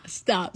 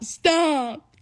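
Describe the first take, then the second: First: Said in the usual way. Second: Higher, louder, pleading stop. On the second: Retold or imitated. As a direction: cry out stop like begging. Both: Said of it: "And they just, ah".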